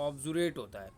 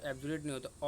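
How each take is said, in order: First: ऑब्जुरेट said with an open o sound, ob-ju-ret; the right o-initial ऑब्जुरेट; ऑब्जुरेट, starting on a rounded aw sound; correct pronunciation. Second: एब्जुरेट said with an opening e sound, eb-ju-ret; the mistaken e-initial एब्जुरेट; एब्जुरेट, starting on a plain e sound; wrong pronunciation. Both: Shown as a demonstration.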